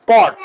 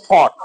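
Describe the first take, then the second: First: পট with a plain, unaspirated p; old unaspirated P. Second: ফট opening on a breath-puffed ph; new aspirated P. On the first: Teacher showing learners the old way, plain p in পট. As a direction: say পট with no puff of air. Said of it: "আগে উচ্চারণ করেছি". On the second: Teacher showing learners the new way, aspirated ph in ফট. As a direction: say ফট with a puff of air at the start. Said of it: "এখন করব". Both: Shown as a demonstration.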